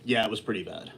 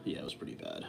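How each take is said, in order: First: Said in the usual way. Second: Softly whispered, half to himself; whispered aside. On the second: Acted. Streamer admits to chat the food was bad, whispered. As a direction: whisper it as a guilty aside to viewers.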